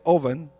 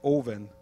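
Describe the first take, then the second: First: The first vowel sounds like the 'o' in 'over'. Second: The first vowel sounds like the 'u' in 'cup'. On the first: "I say oven ... my little bit of British accent that's left over from Jamaica" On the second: "they say oven"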